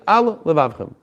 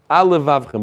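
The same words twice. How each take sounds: First: A short break separates the two L sounds. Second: The two words run together with one L sound. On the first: The speaker calls it right. "you have to say" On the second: The speaker calls it wrong. "if you said it quickly, it might sound al livavchem, ... one lamed"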